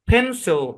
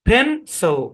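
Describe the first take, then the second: Both takes have the same delivery.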